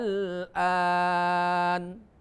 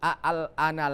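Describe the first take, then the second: First: The opening vowel is held long for six counts. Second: The opening vowel is kept short. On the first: The speaker calls it right. "tapi dibaca al-an, panjangnya enam harokat" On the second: The speaker calls it wrong. "maka dibaca bukan al-ana lagi"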